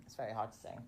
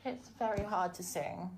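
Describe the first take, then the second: First: Said in the usual way. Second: Raised pitch. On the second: Shown as a demonstration. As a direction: lift the pitch up deliberately. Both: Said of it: "I'm trying to raise my voice and my pitch".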